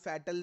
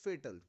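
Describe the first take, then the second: First: The first vowel sounds like in fat. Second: The first vowel sounds like in fate. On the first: The speaker calls it wrong. "फैट और अल फैटल नहीं है" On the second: The speaker calls it right. "It's फेटल"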